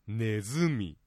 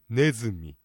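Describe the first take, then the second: First: The pitch accent is not on the first syllable. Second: The pitch accent is on the first syllable. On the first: This is how some other regions say it. "地域によってはネズミなんて発音するところもある" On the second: This is how it is said in Niigata. "頭のねにアクセントを置いてネズミね"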